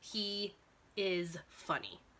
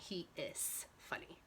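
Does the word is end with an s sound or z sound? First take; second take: z sound; s sound. First: The word is ends with a buzzing z sound. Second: The word is ends with a hissing s sound. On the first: The speaker calls it right. "Let's try the Z sound" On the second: The speaker calls it wrong. "That makes more sense than"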